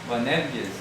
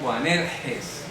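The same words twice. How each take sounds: First: The g is a hard g sound. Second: The g is a throaty h-like sound. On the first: This is how it would sound in Greek. The speaker calls it right. "porque así sonaría en griego" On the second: This is how Spanish speakers say it. The speaker calls it wrong. "pero en español decimos Boanerges"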